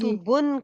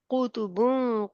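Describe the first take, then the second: First: The final n is pronounced clearly and fully. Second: The final n is hidden in a nasal sound. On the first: The speaker calls it wrong. "कुतुबुन की बजाय" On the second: The speaker calls it right. "हमने कहा कुतुबुन कय्यिमा, बुन नहीं कहा"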